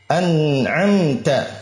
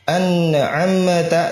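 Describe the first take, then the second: First: The n and m sounds stay smooth, no echo. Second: The n and m sounds bounce with an echo. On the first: The speaker calls it right. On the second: The speaker calls it wrong.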